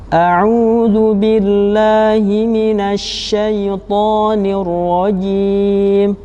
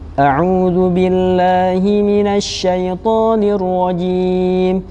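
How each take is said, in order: First: It is recited slowly, slightly quicker than very slow. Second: It is recited at a medium pace. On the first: "lebih cepat tetapi tetap tetap lambat" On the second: "bacaan yang sedang, tidak terlalu cepat dan tidak terlalu lambat"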